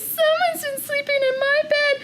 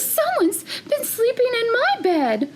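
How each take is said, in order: First: It is said in a tiny, small voice. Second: It is said in a medium-sized voice. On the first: "in his wee little voice" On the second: "in her middle-sized voice"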